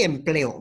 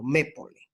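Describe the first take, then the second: First: Empleo, the correct form, said as em-PLE-o; correct word form. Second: Mépole, the scrambled wrong form of empleo, said as me-PO-le; wrong word form. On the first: Teacher giving students the correct word empleo. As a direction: give the right word empleo after the wrong one. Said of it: "pero sí empleo morfológicamente". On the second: Teacher reading the wrong form mépole to students. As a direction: read out the jumbled word mépole as the wrong example. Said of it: "No está morfológicamente, eh, correcta mépole". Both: Shown as a demonstration.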